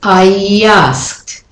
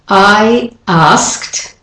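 First: A y sound links the two words. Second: The words are said without a linking y sound.

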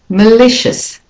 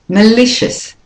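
First: The first vowel is weak and reduced. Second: The first vowel is weak and reduced.

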